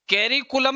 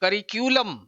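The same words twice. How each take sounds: First: कैरिकुलम with an open first vowel, कै stressed; wrong pronunciation. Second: करिक्यूलम with the stress on the second syllable, रि; correct pronunciation. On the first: Teacher showing students the wrong कैरिकुलम, mock mistake. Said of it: "नहीं होता". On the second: Teacher giving correct करिक्यूलम for the exam, clear demo. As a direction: say करिक्यूलम as kə-RI-kyu-ləm. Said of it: "इसका उच्चारण होता है". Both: Shown as a demonstration.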